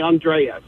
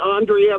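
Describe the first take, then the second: First: The name is pronounced the Italian way. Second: The name is pronounced the British way. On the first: "My Italian grandmother calls me Andrea" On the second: "my British mother calls me Andrea"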